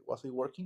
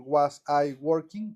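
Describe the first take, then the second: First: "Was I working?" run together like "wasa i"; linked as one word. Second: "Was I working?" said slowly, each word apart; slow separate words. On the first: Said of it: "como si fuera una sola palabra". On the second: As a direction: pause between "Was" and "I". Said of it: "como que júntenla". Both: Shown as a demonstration.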